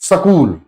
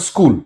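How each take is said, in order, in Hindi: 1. पहले दो व्यंजनों के बीच एक स्वर जोड़ा जाता है। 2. इसमें कोई अतिरिक्त स्वर नहीं बोला जाता। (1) "वो सकूल बोलते हैं" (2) "इस शब्द को सही बोलते हैं स्कूल"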